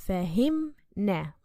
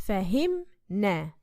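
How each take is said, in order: No difference in how they are said.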